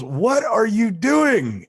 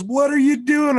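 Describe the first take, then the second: First: High, loud, slow yell of disbelief; exasperated shout. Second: High, loud cry of disbelief; incredulous shout. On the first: Lawyer shouts at client mid-hearing, disbelieving yell. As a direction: drag it out in outrage. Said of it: "looks at me and goes". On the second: James shouts at his client, incredulous yell. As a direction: shriek it in shock. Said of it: "And James goes". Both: Retold or imitated.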